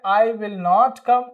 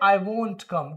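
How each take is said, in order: First: Will not is said as two full words. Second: Will not is contracted into one syllable. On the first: The speaker calls it wrong. "पहले बोलते थे" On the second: The speaker calls it right. "अब क्या बोलेंगे?"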